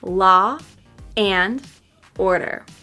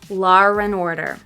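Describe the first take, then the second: First: The words are said apart with breaks. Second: An r sound joins law and and. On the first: "first with the words separated" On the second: "second with the intrusive R between them"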